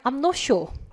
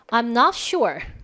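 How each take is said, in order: First: It is said in a British accent. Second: It is said without a British accent.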